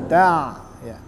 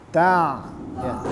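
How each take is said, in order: No difference in how they are said.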